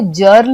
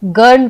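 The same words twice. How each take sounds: First: जर्ल with a j sound, "jurl"; जर्ल said with soft "j" for G; wrong soft G. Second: गर्ल with a hard g, "gurl"; गर्ल opened on "guh", not "juh"; correct hard G. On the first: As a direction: misread girl as जर्ल, starting like "jam". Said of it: "नहीं पढ़ते हैं". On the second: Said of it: "हम इसे". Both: Shown as a demonstration.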